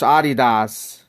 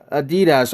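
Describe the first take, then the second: First: Adidas said AH-dee-dahs; German pronunciation. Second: Adidas said quickly as uh-DEE-duhs; American-style Adidas, short last vowel; American pronunciation. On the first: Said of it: "from Germany". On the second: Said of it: "We just pronounce it". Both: Shown as a demonstration.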